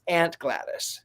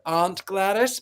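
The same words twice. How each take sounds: First: It is said in an American accent. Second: It is said in a British accent.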